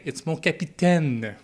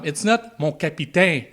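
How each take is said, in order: First: Mon capitaine said mon kap-ee-TEN, final N sounded; French pronunciation. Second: Mon capitaine said mon kap-ee-TAY, final N dropped; English-style French. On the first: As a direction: capitaine with a clear N at the end. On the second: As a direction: capitaine without its N. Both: Shown as a demonstration.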